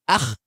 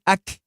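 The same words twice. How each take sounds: First: Akh with a light thin kha, no fullness. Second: Ak said with a clear k, not kha; plain k sound. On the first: Teacher shows wrong kha to class: thin akh. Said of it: "you're sounding kha... wrongly". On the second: Teacher shows wrong letter to class: ak with k. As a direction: end ak on a plain k. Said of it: "there's a difference between saying ak". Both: Shown as a demonstration.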